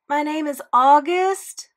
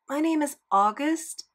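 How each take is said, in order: First: It is said loudly and clearly. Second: It is mumbled quietly.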